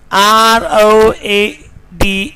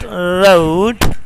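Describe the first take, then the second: First: "road" as "rawd", one pure vowel; wrong vowel. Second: "road" as "roh-ood"; correct vowel. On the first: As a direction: say "road" without a glide. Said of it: "is not road". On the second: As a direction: glide the O in "road" towards "oo". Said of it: "but road". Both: Shown as a demonstration.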